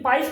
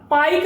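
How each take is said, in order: First: The word ends with an s sound. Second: The word ends with a k sound. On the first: The speaker calls it right. "पाइस पढ़ेंगे" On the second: The speaker calls it wrong. "पाइक नहीं पढ़ेंगे ना"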